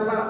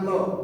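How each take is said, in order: First: The L is light and thin, vowel open. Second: The L is heavy and full, vowel rounded. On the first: The speaker calls it right. "Jadi bacanya la bukan lo" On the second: The speaker calls it wrong. "bukan lo"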